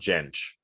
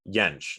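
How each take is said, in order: First: The name starts with an English J sound. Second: The name starts with a Y sound. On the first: The speaker calls it wrong. "not Jentsch" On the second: The speaker calls it right. "they would say Jentsch"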